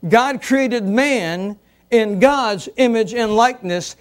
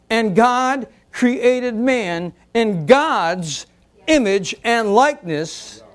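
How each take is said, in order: First: Said in the usual way. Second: Slow, deliberate reading of scripture; measured pulpit reading. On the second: Shown as a demonstration. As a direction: read it out word by word, very slowly. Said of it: "x0.5 slow reading".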